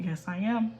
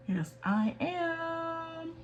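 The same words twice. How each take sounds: First: Said in the usual way. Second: Much higher, slow, playful squeak; squeaky high. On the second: Pretend. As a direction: squeak it out cutely. Playful self-answer, repeated.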